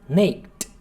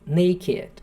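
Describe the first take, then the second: First: The word ends with a t sound. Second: The word ends with an 'id' syllable. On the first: The speaker calls it wrong. "quando termina em K é fatal, tem que ser um t" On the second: The speaker calls it right. "aqui é uma exceção"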